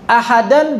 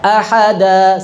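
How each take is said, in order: First: The word ends with an n sound. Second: The word ends in a long vowel. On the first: The word is read without stopping on it. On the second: The reader stops on this word.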